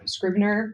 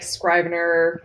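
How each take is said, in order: First: "Scrivener" as SKRIV-ner, asked as a question; short-i pronunciation, questioning. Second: "Scrivener" said with first syllable like "scribe"; long-i pronunciation. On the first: Checking a software name with the host, "Scrivener" as SKRIV-ner. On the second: Unsure of a writing software's name, "Scrivener" as SKRY-ven-er. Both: Shown as a demonstration.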